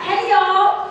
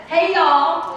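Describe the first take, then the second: First: Higher, fuller hey y'all for the back rows; bigger greeting call. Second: A raised, friendly Southern hey y'all; hearty greeting call. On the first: Speaker urging the crowd to answer, bigger call. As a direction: reach the people at the back. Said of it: "I'm not sure I heard the back". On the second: Speaker to audience, a warm raised greeting. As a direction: call it out to the whole room. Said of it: "So let me try this again". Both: Shown as a demonstration.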